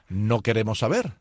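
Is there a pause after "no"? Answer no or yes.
no. It runs on without a pause after no. The speakers do not want to know. "Si le quitas la coma es no queremos saber"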